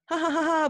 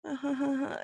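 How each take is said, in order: First: Loud, high put-on laugh; fake mouth laugh. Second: Subdued, airy half laugh; laugh without the eyes. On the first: Showing a mouth-only laugh at an edgy joke, loud and fake. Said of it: "their mouth might go". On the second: Showing eyes that aren't really laughing, hollow airy laugh. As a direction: let the laugh go hollow and empty. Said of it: "but their eyes might go". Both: Shown as a demonstration.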